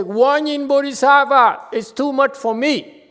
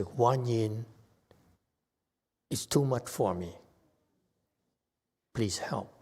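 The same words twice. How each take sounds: First: High, loud desperate cry for help; loud, high panicked wail to Guan Yin; screaming plea. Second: A soft, calm prayer instead of a scream; calm quiet call. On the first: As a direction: scream it out like someone at the end of their rope. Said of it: "instead of screaming". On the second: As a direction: ask quietly and simply, no screaming. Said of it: "You call Guan Yin". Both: Shown as a demonstration.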